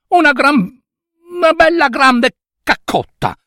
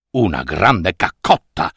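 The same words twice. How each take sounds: First: Put-on high, sweet girl's plea; a girl begging a favour, high and sweet; pleading little girl. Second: Low, puzzled donkey echo; donkey asks back in a low voice. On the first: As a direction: ask nicely in a high girlish voice. Girl asks the donkey. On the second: Acted. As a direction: repeat it deep and baffled. Donkey repeats the request.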